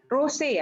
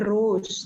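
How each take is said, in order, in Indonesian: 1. Di akhir kata ada bunyi vokal 'ay' yang jelas. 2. Di akhir kata ada bunyi 'z', seperti bunga itu. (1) "rosé ya penyebutannya" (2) "bukan rose"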